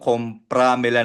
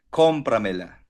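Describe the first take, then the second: First: The stress is on the second syllable, pra. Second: The stress is on the first syllable, com. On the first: The speaker calls it wrong. "Kasi sinasabi mo, compramela na sa pra" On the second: The speaker calls it right. "Iba yung asento na sa O"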